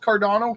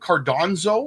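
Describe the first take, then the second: First: The name is said as Cardano, without an n. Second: The name is said as Cardonzo, with an n. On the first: The speaker calls it right. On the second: The speaker calls it wrong.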